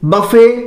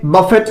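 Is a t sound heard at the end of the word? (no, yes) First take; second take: no; yes. First: The word ends in a vowel, no t. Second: The word ends with a clear t sound. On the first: The speaker calls it right. "इसका जो सही उच्चारण है" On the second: The speaker calls it wrong. "जो कि अपने आप में यह गलत उच्चारण है"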